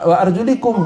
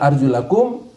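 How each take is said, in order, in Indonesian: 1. Vokal sebelum kum terakhir adalah i. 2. Vokal sebelum kum terakhir adalah a. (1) "wa arjulikum diusap" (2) "kalau dibaca arjulakum, basuhlah"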